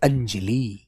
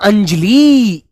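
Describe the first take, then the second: First: The final vowel is short and clipped. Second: The final vowel is long and drawn out. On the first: The speaker calls it right. "छोटी की मात्रा लगाते अंजलि" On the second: The speaker calls it wrong. "ई खिंच जाती पीछे की तरफ, क्योंकि उसमें दो मात्रा का समय लगता है"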